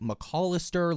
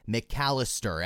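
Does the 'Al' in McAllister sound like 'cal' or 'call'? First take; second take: call; cal. First: The middle syllable sounds like the word call. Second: The middle syllable sounds like the start of California. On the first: The speaker calls it wrong. "or like call, like McAllister, like you're getting a phone call?" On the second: The speaker calls it right. "It is McAllister, as in like California"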